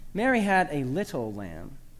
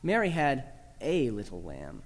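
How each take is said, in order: First: The word "little" carries the main stress. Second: The word "a" carries the main stress. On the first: The lamb's small size is what matters. "Emphasize the fourth word to make much of the lamb's diminutive stature" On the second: The lamb is a single one, not one of a group. "Emphasize the third word, that small little article A"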